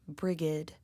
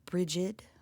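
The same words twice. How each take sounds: First: It is said the Old Irish way. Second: It is said the modern Irish way. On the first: "which is considered Old Irish" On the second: "which is considered modern Irish"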